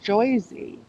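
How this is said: The first syllable has an 'oy' vowel. "they say like Joyzy"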